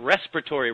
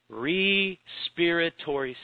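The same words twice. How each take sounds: First: The word is said quickly, run together. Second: The word is said slowly, syllable by syllable. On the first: "We just zip by it" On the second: "if you slow it down"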